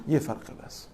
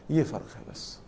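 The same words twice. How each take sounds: First: Whispered. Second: Said in the usual way. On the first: Shown as a demonstration. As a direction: whisper the punchline. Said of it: "punchline whispered, repeated later". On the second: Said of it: "punchline repeated voiced".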